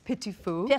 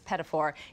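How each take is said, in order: First: It is pronounced with a French sound. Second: It is pronounced with an Americanized sound. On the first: The speaker calls it right. "It's petit fou, right?" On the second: The speaker calls it wrong. "I horribly mispronounce it as pedophore"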